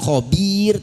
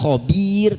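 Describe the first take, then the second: First: The second vowel sounds like 'i'. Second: The same.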